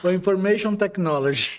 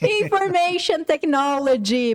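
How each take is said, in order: First: "Information Technology" said in English, INformation stressed; answering the teacher, English words spelled out in "Information Technology"; English expansion. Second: "Information Technology" repeated slowly in English, with a rise at the end; slow model repeat. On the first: Teacher asks what IT means, Information Technology in English. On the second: Teacher repeats the student's answer for learners, slow and clear. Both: Shown as a demonstration. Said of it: "em inglês a gente fala I T".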